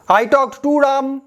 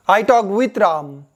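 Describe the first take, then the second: First: Very slow, careful read of an example; slow example sentence. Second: Very slow, careful read, stress on talked; slow example sentence. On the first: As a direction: spell it out word by word for learners. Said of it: "British English कौन सा". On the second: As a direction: lay each word out for learners. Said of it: "American कौन सा". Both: Shown as a demonstration. (धीमे, साफ़ उदाहरण वाक्य)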